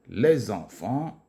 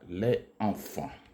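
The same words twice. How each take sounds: First: A z sound links the two words. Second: The two words are said without linking. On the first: The speaker calls it right. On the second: The speaker calls it wrong.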